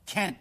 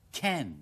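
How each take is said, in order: First: Can't stopped abruptly, T unreleased; held-back T. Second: Can drawn out with a falling tone; emphasised CAN. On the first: Teacher withholding the final T, abrupt can't. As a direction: cut can't off before the T sounds. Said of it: "故意忍住個T唔發出嚟". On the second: Teacher contrasting can with can't, emphasised can. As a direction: lengthen can through the N. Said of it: "就將C A N強調讀". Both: Shown as a demonstration.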